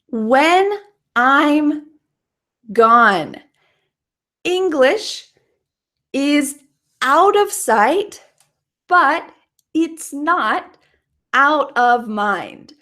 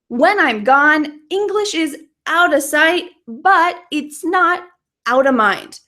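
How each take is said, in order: First: The sentence is said at a normal pace. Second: The sentence is said at a fast pace.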